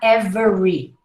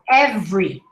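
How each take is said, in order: First: The middle vowel is pronounced, giving three syllables. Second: The middle vowel is nearly dropped, giving two syllables. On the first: The speaker calls it wrong. "not every" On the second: The speaker calls it right. "you almost don't hear the schwa"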